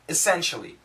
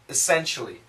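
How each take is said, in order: First: The first vowel is reduced to a short schwa. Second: The first vowel is reduced to a short schwa.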